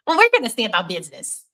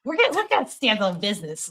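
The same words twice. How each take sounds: First: Nerdy voice. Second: Lightly voiced nerd, a bit higher; timid nerd saying it; nerdy voice. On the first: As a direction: play it like a timid nerd. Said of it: "I wanna do this in my nerdiest, my nerdiest, uh, voice possible". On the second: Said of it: "my nerdiest voice possible". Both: Shown as a demonstration.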